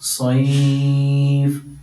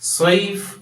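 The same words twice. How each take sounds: First: The vowel before the final consonant is lengthened. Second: The vowel before the final consonant is short. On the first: The speaker calls it right. "അല്പം നീട്ടിയിട്ട്" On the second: The speaker calls it wrong. "ഇങ്ങനെ നിർത്തരുത്"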